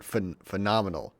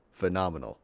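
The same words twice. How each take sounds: First: Trips on "phenomenal" with a false start "phen-"; tongue-tied on "phenomenal"; stumbling over a word. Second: Careful pronunciation; careful clean retry. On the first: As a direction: fumble the start of "phenomenal" before getting it out. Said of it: "I can't say this word". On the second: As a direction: land "Phenomenal" cleanly after the stumble. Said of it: "Okay, I got it". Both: Real, not acted.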